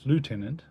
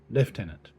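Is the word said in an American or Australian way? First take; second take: American; Australian. First: It is said with an American pronunciation. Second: It is said with an Australian pronunciation. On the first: "for our American um, brothers and sisters, the pronunciation is lieutenant" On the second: "since I'm Australian, I use the word lieutenant"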